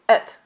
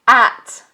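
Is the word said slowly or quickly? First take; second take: quickly; slowly. First: The word is said quickly with a weak vowel. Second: The word is said slowly with a fuller vowel. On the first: "When we pronounce this quite quickly" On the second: "only when we're speaking slowly"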